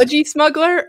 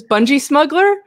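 First: "Budgie smuggler?" with "budgie" said as BUDJ-ee, high rising question; "Budgie" said properly in "Budgie smuggler?"; corrected word. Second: "Bungee smuggler?" said as "bungee", wrong first word, rising question; "Bungee" instead of "budgie" in "Bungee smuggler?". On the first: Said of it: "I said it wrong". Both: Shown as a demonstration.

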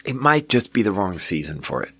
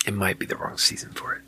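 First: Said in the usual way. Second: Quiet, half-whispered musing; under the breath. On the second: Real, not acted. Reviewer second-guessing the bad drink, muttered under the breath. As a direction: softly repeat it to yourself, almost whispered.

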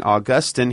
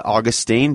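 First: "Augustine" said a-GUS-tin, stress on the middle, short i; newer way. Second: Put-on "Augustine" said AW-gus-teen, stress first, long ee at the end; old way. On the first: Host showing the newer a-GUS-tin way of saying "Augustine". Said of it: "more and more people are saying". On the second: Host showing how he used to say "Augustine" as AW-gus-teen. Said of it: "I started out my life saying". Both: Shown as a demonstration.

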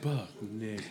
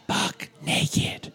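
First: Echoey whisper. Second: Breathy echo radio whisper; a hint of echoey sultry whisper. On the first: Retold or imitated. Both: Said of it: "the echoey".

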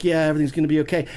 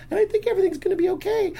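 First: Fast, louder adult voice, no falsetto; reassuring ex-con. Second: Put-on very high, quick child voice; cute little girl. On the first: Retold or imitated. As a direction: imitate a man hurriedly reassuring a child. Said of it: "And he's like". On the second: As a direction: reassure in a squeaky four-year-old's falsetto. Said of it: "this cute little blonde girl".

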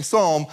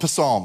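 First: "Psalm" said as "sahm", P left silent. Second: "Psalm" read as spelled, "puh-SAHM"; sounded P. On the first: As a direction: start "Psalm" straight on the S sound. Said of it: "the P is silent". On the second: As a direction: add a puh before the S in "Psalm". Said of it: "It's spelled Psalm". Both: Acted.

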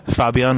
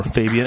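First: "Fabian" said as FAH-bee-an; alternative name pronunciation. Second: "Fabian" said as FAY-bee-an; long "ay" in the first syllable of "Fabian"; English name pronunciation. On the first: Interviewer offering a guest two name options, "Fabian" as FAH-bee-an. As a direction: open "ah" in the first syllable of "Fabian". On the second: Interviewer offering a guest two name options, "Fabian" as FAY-bee-an. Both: Shown as a demonstration. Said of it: "how should we pronounce your name".

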